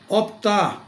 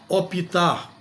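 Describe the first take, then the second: First: The p and t join with no vowel between. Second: An extra i vowel separates the p and t. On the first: The speaker calls it right. "optar e não optar" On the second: The speaker calls it wrong. "não soa muito agradável"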